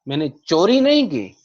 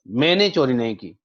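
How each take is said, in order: First: The stress is on चोरी. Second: The stress is on मैंने.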